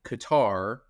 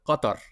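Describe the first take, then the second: First: The name is said with an American pronunciation. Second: The name is said with an Arabic-style pronunciation. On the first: This is how people in the US say it. "I believe Americans call it Qatar" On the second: This is how someone who studied Arabic says it. "I call it Qatar because ... I was an Arabic language major"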